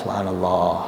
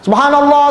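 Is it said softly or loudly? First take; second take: softly; loudly. First: It is said softly, just audible. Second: It is said loudly, as over a microphone.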